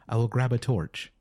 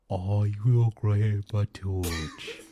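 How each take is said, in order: First: It is read in a plain American accent. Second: It is read in a put-on British accent.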